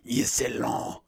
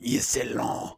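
First: The name is said in an exaggerated French accent. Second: The same.

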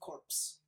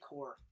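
First: The word ends with an audible ps sound. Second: The word ends in an r sound, no ps. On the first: It means a dead body. The speaker calls it wrong. "It's not corpse. It's not bodies" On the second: It means a group or military unit. The speaker calls it right. "I say Corps. Because it's Marine Corps"

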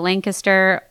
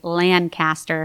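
First: It is pronounced like the city name. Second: It is pronounced unlike the city name. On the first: The speaker calls it wrong. "I'm sorry" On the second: The speaker calls it right. "Her name is not pronounced like the city"

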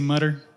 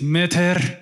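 First: It is said in an American accent. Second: It is said in an Ethiopian accent.

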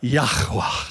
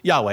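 First: It is said with a throaty, breathy sound. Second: It is said with clear, full vowels. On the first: "Take out the A, take out the E. And add that back of the throat sound. Let's all try it together" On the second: "in the English language, we pronounce the Lord this way. We pronounce it as Yahweh"

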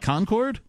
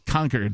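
First: It does not sound like 'conquered'. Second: It sounds like the word 'conquered'. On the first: This is the outsider's way to say it. "Which is how everybody else says it" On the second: This is the local way to say it. "you're a tyrant and you're going to take over some land. You've conquered them"

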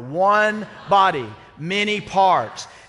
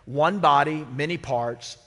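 First: It is said even louder than before. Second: It is said at a normal speaking volume.

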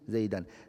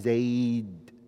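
First: The word ends with an added -an. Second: The word ends on d with no vowel. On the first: The speaker calls it wrong. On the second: The speaker calls it right.

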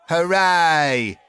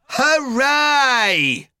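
First: The cheer sounds weary and tired. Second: The cheer sounds sarcastic and mocking.

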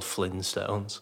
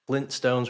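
First: The T sound is dropped from the middle. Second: The T sound is clearly pronounced in the middle. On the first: The speaker calls it wrong. "there's people out here thinking that they're called Flintstones" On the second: The speaker calls it right. "Flintstones with a T"

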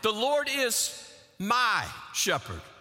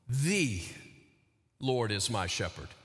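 First: The stress is on "my". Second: The stress is on "The".

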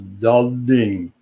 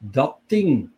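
First: Both consonants at the word boundary are voiced. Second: Both consonants at the word boundary are voiceless. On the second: "the second word adapts, becomes unvoiced"

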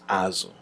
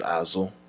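First: The first syllable is on a high pitch. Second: The first syllable is on a low pitch. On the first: It means fish. "fish is azo" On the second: It means behind or back. "behind is azo"

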